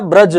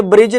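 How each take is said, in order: First: ब्रज said slowly with a short a, "braj", no i sound; teacher's slow correct ब्रज; right reading, slow "braj". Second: ब्रिज said with a short i, like English "bridge"; teacher's example of the wrong ब्रिज; wrong reading, "brij". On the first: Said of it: "ये क्या होता है?". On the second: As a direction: show the mistaken ब्रिज. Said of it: "ये ब्रिज नहीं होता". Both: Shown as a demonstration.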